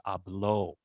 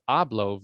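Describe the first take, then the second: First: "habló" as ah-BLO, final syllable strong; stress on last syllable. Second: "hablo" as AH-blo, first syllable strong; stress on first syllable. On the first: Teacher contrasting Spanish meanings, "habló" stressed at the end. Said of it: "hablo versus habló". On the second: Teacher contrasting Spanish meanings, "hablo" stressed up front. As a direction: hit AH in "hablo". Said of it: "totally different meaning to say". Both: Shown as a demonstration.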